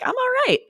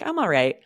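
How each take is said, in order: First: It is said in a bright, enthusiastic tone. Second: It is said in a flat, neutral tone. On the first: The speaker is doing great. "it depends on the intonation too... Then it's more like I'm great" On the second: The speaker is just okay. "I think I'm all right's a lot like I'm fine"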